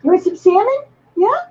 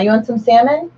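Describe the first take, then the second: First: Much higher, sing-song pet talk. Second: Said in the usual way. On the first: Real, not acted. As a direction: tease the dog sweetly, pitched way up. Teasing the dog with salmon.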